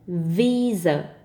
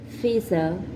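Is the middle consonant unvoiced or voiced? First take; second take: voiced; unvoiced. First: The first consonant is a voiced v sound. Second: The first consonant is an unvoiced f sound. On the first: The speaker calls it right. "with a voiced V" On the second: The speaker calls it wrong. "I said visa with a voiced F"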